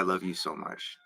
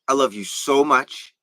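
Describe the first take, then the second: First: It is said calmly and smoothly, with low energy. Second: It is said with more force and higher energy.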